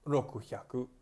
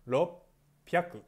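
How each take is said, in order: First: The middle has a k then h sound. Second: The middle has a doubled p sound. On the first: The speaker calls it wrong. "Hindi siya ulit rokuhyaku" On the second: The speaker calls it right. "Magiging ropyaku"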